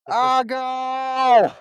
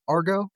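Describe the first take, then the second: First: It is said in a put-on Boston accent. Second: It is said in a plain, neutral accent.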